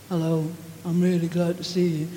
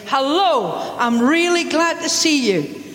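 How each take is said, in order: First: The greeting is said in a flat, uncaring tone. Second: The greeting is said in a warm, hearty tone. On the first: The speaker does not really care about the listener. The speaker calls it wrong. "you're not communicating" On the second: The speaker is truly happy to see the listener. The speaker calls it right. "you shake them by the hand, you slap them on the back"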